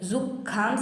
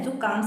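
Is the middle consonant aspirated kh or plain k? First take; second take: aspirated kh; plain k. First: The middle consonant is an aspirated kh. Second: The middle consonant is a plain k. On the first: The speaker calls it wrong. "जुखाम से बच के नहीं रहना है" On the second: The speaker calls it right. "जुकाम से बच के रहना है"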